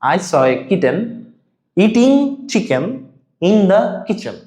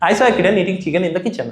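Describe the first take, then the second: First: The sentence is said slowly and carefully. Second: The sentence is said as fast as possible. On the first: "আস্তে আস্তে try করি" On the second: "যতটা জোরে বলা যায়।"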